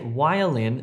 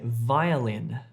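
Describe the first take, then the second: First: The word begins with a w sound. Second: The word begins with a v sound. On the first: The speaker calls it wrong. "Don't say violin" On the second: The speaker calls it right. "say violin"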